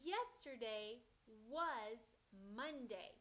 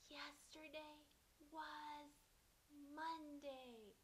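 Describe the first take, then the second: First: The words are said in a full voice. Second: The words are said in a soft whisper.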